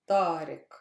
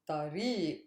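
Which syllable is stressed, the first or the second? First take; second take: first; second. First: The stress is on the first syllable. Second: The stress is on the second syllable.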